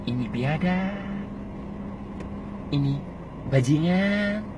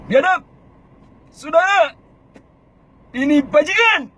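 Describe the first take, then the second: First: Much softer, slow "Ini biadab"; quiet measured "Ini bajingan"; low and calm. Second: Much higher, louder rabble-rousing cry; high provoking shout. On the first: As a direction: say it softly, slowly. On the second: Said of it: "itu pakai kata-kata tinggi". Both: Shown as a demonstration.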